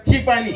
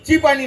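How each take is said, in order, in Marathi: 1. चहाचा शब्द छोटा करून म्हणतात. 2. चहाचा शब्द छोटा करून म्हणतात.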